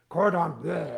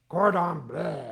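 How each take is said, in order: Both takes have the same delivery.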